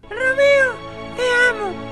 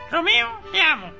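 First: It is said in a put-on woman's voice. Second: It is said in his normal voice.

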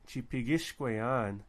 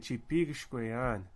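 First: The stress falls on the ish syllable. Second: The stress falls on the pig syllable. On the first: The speaker calls it wrong. "You don't say Chipigishkwayan" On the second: The speaker calls it right. "you say Chipigishkwayan. So that ish syllable doesn't take the emphasis"

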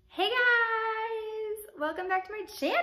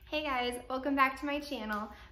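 First: It is said with over-the-top, loud energy. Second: It is said with calm, moderate energy.

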